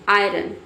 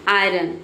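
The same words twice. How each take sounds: The two takes are said the same way.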